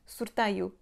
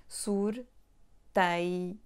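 First: Said in the usual way. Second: SURTAIO broken into soor, tai, oo; syllable by syllable. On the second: Shown as a demonstration. Teacher showing where the y sound comes from, syllable by syllable. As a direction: pause between each syllable of SURTAIO. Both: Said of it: "we already have that sound y".

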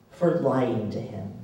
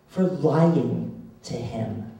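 First: Said in the usual way. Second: For lying to him, said very slowly, each word weighed; slow, bitter emphasis. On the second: Real, not acted. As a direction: let "For lying to him" land heavy and slow.

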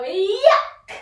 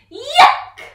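First: High loud rising yuck; loud disgusted yuck. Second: Very high, very loud squealed yuck; shrieked yuck; disgusted yuck. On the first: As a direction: spit it out in disgust. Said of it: "we've just swallowed a fly, so we're gonna go". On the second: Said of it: "or yuck". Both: Shown as a demonstration.

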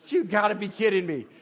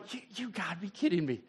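First: Exasperated. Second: Quick, softer, muttered under the breath; quiet disbelieving grumble; muttered disbelief. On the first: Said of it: "What do you think Jesus did". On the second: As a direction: grumble it to yourself. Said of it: "He's just sitting here going". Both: Retold or imitated.

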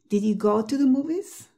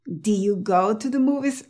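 First: 'Did you' with the D kept, question rising; D pronounced. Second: 'Do you' with no D closing the first word; D left out. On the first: Teacher modelling a practice question in contrast, D pronounced. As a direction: keep the D closing 'Did' in the whole question. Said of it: "sobre todo hazlo en contraste". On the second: Teacher showing how strange it sounds, D left out. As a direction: open 'Do' straight into 'you' in the question. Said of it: "Dilo sin la D". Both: Shown as a demonstration.

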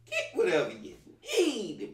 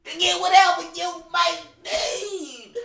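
First: Said in the usual way. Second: High, loud, slow announcer shout; hammed-up loud announcer line; booming announcer. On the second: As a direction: proclaim it like a game announcer. Mocking game's announcement voice.

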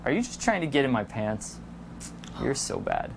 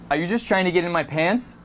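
First: Low, soft playful accusation; hushed mock suspicion, pitched low; teasing accusation. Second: Said in the usual way. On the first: Shown as a demonstration. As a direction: accuse teasingly, dropping to a whisper.

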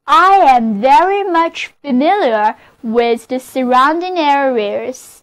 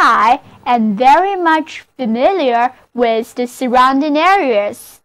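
First: Model sentence reading. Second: Repeated model reading. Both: Shown as a demonstration. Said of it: "就是".

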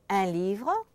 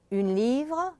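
First: "un" in "un livre" as a nasal vowel; masculine un. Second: "une" in "une livre" with French u and sounded N; louder, higher "une livre", N pronounced; feminine une. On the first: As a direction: keep the N silent in "un", rising at the end. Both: Shown as a demonstration. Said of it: "that difference between un and une".

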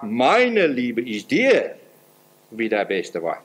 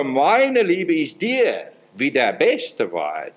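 First: Very slow, dropping lower at the end; slow, tender verse read; slow devout quote. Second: Very slow, weighty verse; slow, solemn delivery of the verse; slow devout quote. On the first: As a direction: draw the words out like an offering. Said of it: "hat sie gesagt". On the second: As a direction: spell it out word by word, slowly. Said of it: "Als gereifte Jungfrau". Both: Acted.

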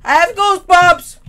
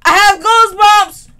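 First: Louder, spooked cry of goosebumps; spooked exclaim. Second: Goosebumps cried higher and louder; higher spooked exclaim. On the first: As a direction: blurt out your fear. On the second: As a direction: push the fear further up. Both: Real, not acted.

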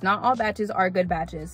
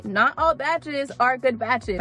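First: Said in the usual way. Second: Slow, drawn-out "Not all batches are good batches"; say-along emphasis. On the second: Shown as a demonstration. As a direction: lead the listeners through it word by word. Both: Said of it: "Say it with me".

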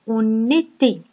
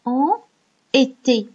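First: "on était" run together with a linking n; liaison. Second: "en", a pause, then "était" on its own; separate written words. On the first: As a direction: pronounce "on était" as one linked unit. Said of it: "Mais on prononce". (« on était » enchaîné, avec la liaison en n) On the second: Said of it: "on écrit en". (« en », pause, puis « était », sans liaison) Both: Shown as a demonstration.

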